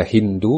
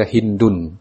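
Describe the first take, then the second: First: Hindu ending on an open u; pronunciation demo. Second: Hindun closed with a final n; pronunciation demo. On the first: Teacher shows students first reading, Hindu without final n. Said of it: "bisa dibaca Hindu". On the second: Teacher shows students second reading, Hindun with final n. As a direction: say Hindun, sounding the n ending. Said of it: "bisa dibaca Hindun". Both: Shown as a demonstration.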